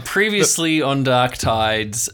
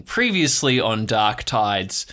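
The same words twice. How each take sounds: First: Slow, drawn-out announcer read; trailer-voice recap. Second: Slow, weighty TV announcer opening; dramatic recap. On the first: Host restarting the recap in announcer voice. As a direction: stretch it out like a trailer. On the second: Host opening the recap like a TV announcer. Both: Acted.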